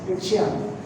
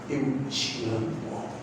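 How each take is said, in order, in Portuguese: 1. É dito rápido e sem atenção, sem sentimento. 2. É dito devagar e com carinho, com muito sentimento. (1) "Isso é feio" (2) "deixar sair do fundo da sua alma"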